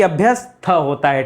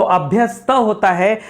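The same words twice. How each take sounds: First: अभ्यस्त with an aspirated th, like abhyasth; wrong pronunciation. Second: अभ्यस्त with a plain unaspirated t; correct pronunciation. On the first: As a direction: show the mistake in अभ्यस्त with a breathy th. (अभ्यस्त गलत उच्चारण में, थ के साथ) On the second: (अभ्यस्त सही उच्चारण में, साफ़ त) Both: Shown as a demonstration. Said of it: "ना कि".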